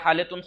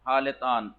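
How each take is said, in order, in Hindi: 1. शब्द हल्की 'tun' आवाज़ से खत्म होता है। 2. शब्द पूरी 'tan' आवाज़ से खत्म होता है। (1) "बोलते क्या हालतुन खूब है। तून यानी तान हुई" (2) "हालतान बोल असल में ये है"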